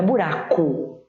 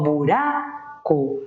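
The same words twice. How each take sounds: First: "buraco" in one piece, ending like "bu-RA-cu"; everyday spoken "buraco"; final U. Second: "buraco" slow, long RA, then a separate CO; teacher's slow spelling-style "buraco"; stressed RA. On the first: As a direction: reduce the last vowel of "buraco" to U. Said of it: "Eu até falo". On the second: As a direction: split "buraco" as buRAAA... CO with a full O. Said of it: "o urá é a sílaba tônica". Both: Shown as a demonstration.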